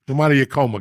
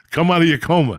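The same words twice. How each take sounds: First: Said in the usual way. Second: Calling it out louder at the dozing friend. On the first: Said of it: "And at this, Lee". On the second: Real, not acted. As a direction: raise the voice to wake Lee.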